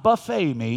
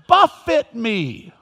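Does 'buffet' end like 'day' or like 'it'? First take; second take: day; it. First: The word buffet ends with a long 'ay' sound. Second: The word buffet ends with a short 'it' sound. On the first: A meal of food was served. The speaker calls it wrong. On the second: Someone was struck repeatedly. The speaker calls it right.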